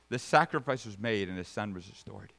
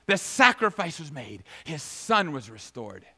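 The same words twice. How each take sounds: First: Said in the usual way. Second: Emphatic proclamation. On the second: Real, not acted. Preacher declaring the son restored, emphatic proclamation. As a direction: proclaim it, then ease down to a close. Emphatic repeat after the shouted command.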